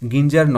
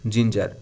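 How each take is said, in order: First: The word begins with a hard g sound. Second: The word begins with a j sound. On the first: The speaker calls it wrong. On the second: The speaker calls it right.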